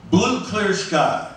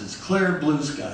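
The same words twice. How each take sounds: First: "Blue" hit higher and slowly, then "Clear Sky" falls away; stress on Blue. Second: "Clear" punched first, "Blue Sky" falls after it; correcting him, lean on "Clear" in "Clear Blue Sky"; stress on Clear. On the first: Pitching the title to the producers, slow with "Blue" stressed. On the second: Producers correcting the songwriter, stress on "Clear". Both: Retold or imitated. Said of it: "Well, that's backwards".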